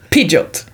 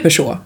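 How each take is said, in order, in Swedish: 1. Namnet läses ut bokstav för bokstav. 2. Namnet säger man på det vanliga franska sättet. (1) "Och att det uttalas Pidgeot" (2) "bilmärket Peugeot, det har man ju hört"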